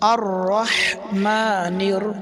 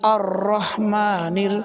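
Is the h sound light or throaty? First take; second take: throaty; light. First: The h is breathy with throat pressure. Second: The h is light without throat pressure. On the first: The speaker calls it right. "গলার ভিতরে হালকা চাপ লাগবে" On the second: The speaker calls it wrong. "ছোট হাত দিয়ে এরকম বলে"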